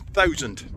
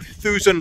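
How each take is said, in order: First: The word has a standard English vowel. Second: The word has a local Scots vowel.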